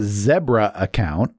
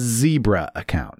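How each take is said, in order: First: Zebra is said with a British accent. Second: Zebra is said with an American accent. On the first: "I just thought I'd say that with a British accent" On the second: "For us, it would be a zebra account"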